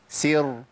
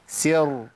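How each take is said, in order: The two takes are said the same way.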